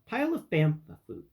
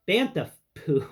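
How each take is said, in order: First: Bantha said with "foo" ending instead of "poo"; slip of the tongue. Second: "Bantha poo" with a firm, clear p in "poo"; careful correction. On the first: Host fumbling the phrase, saying "foo". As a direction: trip on "foo" where "poo" belongs. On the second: Host finally getting the phrase right, a bit louder. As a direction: land "poo" deliberately after the slips. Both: Real, not acted. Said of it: "It's really difficult to say".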